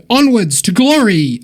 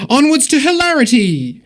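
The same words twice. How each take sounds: First: Said in the usual way. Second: Much higher, hammed-up rallying cry; mock heroic battle cry. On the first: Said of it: "Oh, wait. This is D and D". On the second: Host reworking a donor's message as a mock heroic rally cry. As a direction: proclaim it like a mock quest leader. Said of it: "This is D and D".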